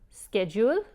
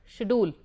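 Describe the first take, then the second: First: It is said in an American accent. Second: It is said in a North Indian accent. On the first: "Schedule is what they say in the United States" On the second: "Northern India"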